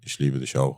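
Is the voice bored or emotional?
bored. It is said in a flat, bored voice.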